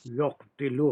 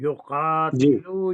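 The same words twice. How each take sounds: First: युक्तिलु with q closed straight onto t; no long aa in युक्तिलु, just yuq-tilu; alif lost. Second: युकातिलु with qaa drawn out long and louder; alif pronounced. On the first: Teacher warning what it turns into, युक्तिलु with the alif lost. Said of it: "वरना फिर वही हो जाएगा". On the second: Teacher showing the present tense form, युकातिलु with a long alif. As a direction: stretch the aa slowly in युकातिलु. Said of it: "अलिफ को हमेशा आप pronounce करेंगे". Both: Shown as a demonstration.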